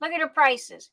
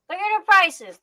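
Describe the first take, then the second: First: Said in the usual way. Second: Higher and insistent on prices; emphatic repeat. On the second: Real, not acted. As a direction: push prices home, insisting. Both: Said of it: "You think I'm lying?".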